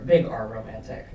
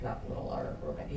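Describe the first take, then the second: First: BIG stressed, louder. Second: "little" said soft and quick; stress on little. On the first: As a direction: punch big in "big R romantic". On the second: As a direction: throw away "little R romantic". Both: Shown as a demonstration.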